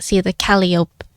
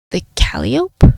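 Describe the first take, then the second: First: Said in the usual way. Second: Slow breathy whispered echo; whispered question. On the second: Acted. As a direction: hush it back, puzzled. Detective echoes in a hush.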